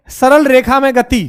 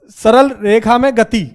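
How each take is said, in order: Both takes have the same delivery.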